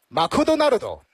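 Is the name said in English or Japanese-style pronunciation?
Japanese-style. It is said with Japanese-style added vowels. "如果是日式英语的话，那就是马库多纳鲁多"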